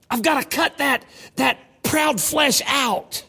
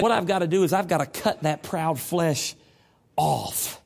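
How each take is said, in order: First: Higher, very slow, leaning on "proud flesh"; emphatic repeat. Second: Said in the usual way. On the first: Retold or imitated. The doctor insisting on "proud flesh", said high and very slow. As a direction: drag out "that proud flesh out" with weight. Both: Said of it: "He said".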